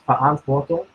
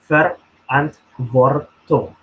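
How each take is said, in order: First: The R sounds are dropped, German-accent style. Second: The R sounds are clearly pronounced.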